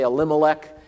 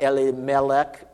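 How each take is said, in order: First: The name is said with an American pronunciation. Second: The name is said with a Hebrew-like pronunciation. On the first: "We always Americanize these pronunciations, right? We say Elimelech" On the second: "Probably in Hebrew it would be more like Elimelech"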